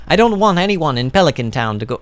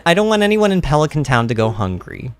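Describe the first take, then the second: First: Badly faked Italian accent; half-hearted Italian character voice; attempted Italian accent. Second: Said in the usual way. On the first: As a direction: try a light Italian accent. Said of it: "I wanna do an Italian voice for Gus". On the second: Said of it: "gonna read his voice straight".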